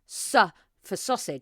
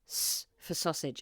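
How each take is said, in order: First: The S sound has a vowel added after it. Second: The S sound has no vowel added after it. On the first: The speaker calls it wrong. "not S for sausage" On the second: The speaker calls it right. "you have to remember not to add a vowel sound"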